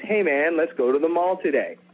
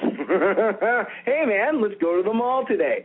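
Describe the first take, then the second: First: It is spoken plainly, without laughter. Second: It is spoken through laughter. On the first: "So let's say the line is" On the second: "Start with a laugh. ... I would go"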